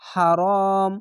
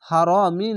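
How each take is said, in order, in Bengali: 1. শব্দটি একটি খালি 'm' ব্যঞ্জনবর্ণ দিয়ে শেষ হয়। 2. শব্দটি 'i' স্বরধ্বনি দিয়ে শেষ হয়। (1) "থামতে হবে তার জন্য শেষ করে সাকিন হবে" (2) "হারামি না বলে"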